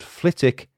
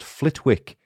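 First: The W in the middle is silent. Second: The W in the middle is pronounced. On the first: The speaker calls it right. "Flitwick has a silent W in its name" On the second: The speaker calls it wrong. "I was convinced that the town's name was pronounced Flitwick, as in Professor Flitwick, but alas, I was wrong"

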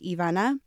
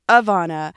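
First: The name has a Spanish pronunciation. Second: The name has a non-Spanish pronunciation. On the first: This is how the family says the name. The speaker calls it right. "we pronounce it in Spanish and that's how it's pronounced" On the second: This is how outsiders say the name. The speaker calls it wrong. "that's been butchered"

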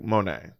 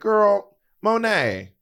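First: It is said in a lower voice. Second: It is said in a higher voice.

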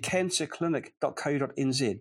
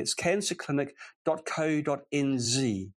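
First: It is said in his usual non-American accent. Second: It is said in an American accent.

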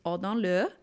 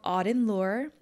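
First: It is said with a French accent. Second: It is said with an English accent.

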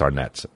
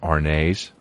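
First: The name is given a plain American ending. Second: The name is given a foreign, French-like ending. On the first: The speaker treats it as an American name. The speaker calls it right. "It's Arnett's in America" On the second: The speaker thinks it is a foreign name. The speaker calls it wrong. "because they thought it was like foreign"

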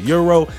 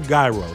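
First: The word starts with a y sound, like euro. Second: The word starts neither like hero nor euro. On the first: Some people say it this way. "some of y'all pronounce it euro" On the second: This is how the speaker says it. "I pronounce it gyro"

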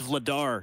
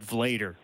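First: The ending does not rhyme with Vader. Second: The ending rhymes with Vader. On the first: The speaker calls it right. "It's Vladar" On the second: The speaker calls it wrong. "not Vlader. So we can't go with Darth Vlader"

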